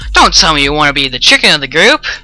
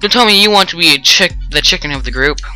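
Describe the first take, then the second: First: It is said in a mocking, taunting tone. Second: It is said in a plain, neutral tone.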